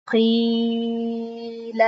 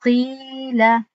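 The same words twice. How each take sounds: First: قیل with the ی dragged out far too long, almost sung; wrong overlong قیل. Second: قیل recited slowly with the ی held two counts; correct two-count قیل. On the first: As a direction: overstretch the ی in قیل. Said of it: "قیل نگفتم". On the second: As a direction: give قیل its proper two-beat ی. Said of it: "تنها". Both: Shown as a demonstration.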